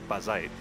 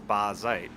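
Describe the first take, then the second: First: The word is said quickly and clipped. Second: The word is said slowly and drawn out.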